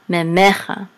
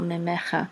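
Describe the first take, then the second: First: The stress falls before the last syllable. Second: The stress falls on the last syllable. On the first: "This line right here gives it the accent" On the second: "Otherwise, the accent would be on the last syllable"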